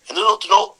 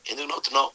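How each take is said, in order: First: Higher, louder roaring question; lion's angry demand. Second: Said in the usual way. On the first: Acted. Lion in a Sunday school story demands why the pig laughs, angry and loud. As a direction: bark it like an annoyed king of beasts.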